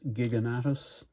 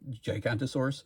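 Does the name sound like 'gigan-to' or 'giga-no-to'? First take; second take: giga-no-to; gigan-to. First: The name is said as 'gi-ga-no-to'. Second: The name is said as 'gi-gan-to-saurus'. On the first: The speaker calls it right. "but it's Giganotus" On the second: The speaker calls it wrong. "I always thought it was pronounced Gigantosaurus"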